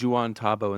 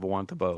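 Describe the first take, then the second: First: The first part is said as the name Juan. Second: The first part is said like 'wan'. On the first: This is a misreading from childhood. The speaker calls it wrong. "I used to call it Juan Tabo" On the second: This is the usual local way of saying it. The speaker calls it right. "instead of Wantabo"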